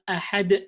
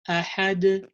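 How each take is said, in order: First: The final sound ends with a closed glottal catch. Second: The final sound is released without a glottal catch. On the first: The speaker calls it wrong. "not ahad" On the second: The speaker calls it right. "Don't close the vocal cords when you perform qalqala. So you have to you have to say like ahad"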